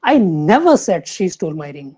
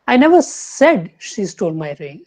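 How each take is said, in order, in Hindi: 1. Stress 'never' शब्द पर पड़ता है। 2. स्ट्रेस 'said' शब्द पर पड़ता है। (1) "सेकंड" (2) "थर्ड लेंगे"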